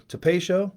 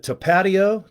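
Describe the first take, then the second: First: Tapatio said as ta-PAY-shoh, with a sh sound in the middle; trying another pronunciation. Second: Tapatio said as ta-PAH-tee-oh, with a t sound in the middle; trying a pronunciation. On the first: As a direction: try Tapatio again as ta-PAY-shoh, rising like a question. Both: Shown as a demonstration. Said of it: "is it tapatio?".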